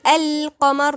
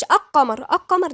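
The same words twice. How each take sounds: First: القمر as "al-qamar", l clearly voiced; correct sounded lam. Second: القمر as "aq-qamar", l dropped; wrong silent lam. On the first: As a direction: hold the ل of القمر before the q. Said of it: "يبقى نقول". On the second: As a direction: wrongly swallow the ل of القمر into a doubled q. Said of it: "ما بنقولش". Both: Shown as a demonstration.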